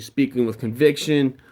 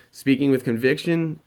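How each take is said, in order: First: Confident statement, closing down on CONVICTION; spoken with conviction. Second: Unsure upturn on CONVICTION; insecure rising inflection. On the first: Coach showing students how confidence sounds, falling inflection. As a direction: let "conviction" fall at the end. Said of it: "It sounds a lot more confident". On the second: Coach showing students how insecurity sounds, rising inflection. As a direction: let "conviction" lift at the end like a question. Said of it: "you sound insecure". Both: Shown as a demonstration.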